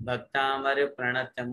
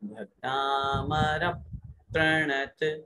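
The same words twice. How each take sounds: First: The syllable before pranata gets no extra weight. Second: The syllable before pranata gets extra weight. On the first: "एक तो सामान्य होता है" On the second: "Sanskrit और व्याकरण की दृष्टि से शुद्ध उच्चारण"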